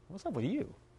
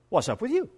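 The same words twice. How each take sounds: First: It is said in a scornful, disapproving tone. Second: It is said in a casual, friendly tone. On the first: It expresses disapproval of the other person. "accompanied by a shake of the head and a curled lip" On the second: It is just a friendly conversation starter. "nothing more than a casual conversation starter"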